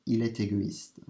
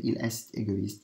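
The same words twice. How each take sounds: First: Il est égoïste with the t linked into égoïste; liaison demo. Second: Il est égoïste with a separate est, no t link; unlinked wrong version. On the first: Teacher showing the linked t in il est égoïste. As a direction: join the t of est onto égoïste. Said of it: "So you're not saying il est égoïste". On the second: Teacher giving the wrong unlinked il est égoïste. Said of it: "So you're not saying". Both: Shown as a demonstration.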